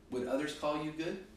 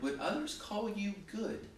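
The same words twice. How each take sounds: First: Said in the usual way. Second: Others pitched high and leaned on; earnest question hitting others; stress on others. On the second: Shown as a demonstration. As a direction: lean hard on the word others. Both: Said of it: "all kidding aside".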